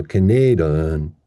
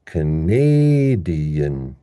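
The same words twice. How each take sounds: First: "Canadian" as kuh-NAY-duh-un, no ee; wrong, two schwas. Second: "Canadian" very slow, long NAY, small ee, schwa ending; stressed second syllable. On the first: Teacher showing what doesn't work, "Canadian" as kuh-NAY-duh-un. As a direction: replace the ee in "Canadian" with uh. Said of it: "that just doesn't work". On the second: Teacher showing how the word becomes, slow kuh-NAAAY-dee-un for "Canadian". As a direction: stretch NAY hugely in "Canadian". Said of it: "So this word becomes". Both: Shown as a demonstration.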